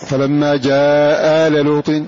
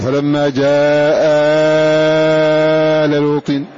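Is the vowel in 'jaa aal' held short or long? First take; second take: short; long. First: The vowel before 'aal' is held short. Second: The vowel before 'aal' is held very long. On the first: One of the two alifs is dropped. "يتعين قصر" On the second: Both alifs are kept, with an extra one between them. "يتعين إشباع"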